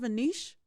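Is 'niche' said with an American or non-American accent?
non-American. Niche is said in a non-American way.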